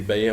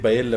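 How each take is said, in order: First: The middle consonant is a Y sound. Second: The middle consonant is an L sound. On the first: This is how the word is actually pronounced. The speaker calls it right. "بتتنطق باية" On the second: This is how the word is spelled. The speaker calls it wrong. "بتتكتب بايلا"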